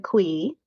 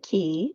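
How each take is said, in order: First: The word begins with a kw sound. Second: The word begins with a plain k sound. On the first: "I do say qui" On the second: "some people say qui"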